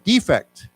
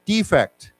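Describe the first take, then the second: Both takes have the same delivery.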